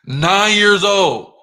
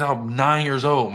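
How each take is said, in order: First: Loud, high, drawn-out exclamation; emphatic shout. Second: Said in the usual way. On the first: Real, not acted. Boasting to listeners how early he started, emphatic shout. Repeats his age emphatically.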